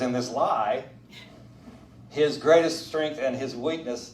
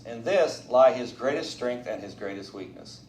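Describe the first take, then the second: First: The pause comes after "lie". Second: The pause comes after "this".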